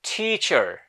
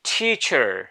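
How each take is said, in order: Both takes have the same delivery.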